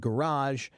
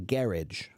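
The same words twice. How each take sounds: First: It is said with an American pronunciation. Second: It is said with a British pronunciation. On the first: "In American English, we pronounce it garage" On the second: "In British English, they say garage"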